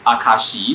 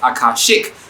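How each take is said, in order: First: The word ends without a k sound. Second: The word ends with a k sound. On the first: "my friends who are in the know pronounce it as Akashi" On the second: "I would have pronounced it as Akashic"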